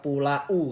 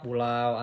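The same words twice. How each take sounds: First: The final a and u are separate syllables. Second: The final a and u glide together. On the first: The speaker calls it wrong. "nggak dibaca pulau kan" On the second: The speaker calls it right. "dibacanya pulau ... jadi langsung dibaca"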